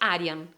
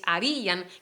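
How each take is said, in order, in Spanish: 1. La i es débil y se une con la a. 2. La i es tónica y se pronuncia aparte. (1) "no es harían" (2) "quiero que se diga esta I fuerte"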